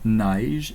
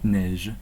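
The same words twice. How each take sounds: First: The word has a Quebec French vowel sound. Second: The word has a standard French vowel sound. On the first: "l'accent régional québécois. Ici, nous disons neige" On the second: "non neige"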